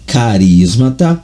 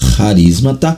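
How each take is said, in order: First: The word begins with a k sound. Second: The word begins with an sh sound. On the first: "Mas a pronúncia é carismata" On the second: "há quem pronuncie também, o grego dá essa vazão para charismata"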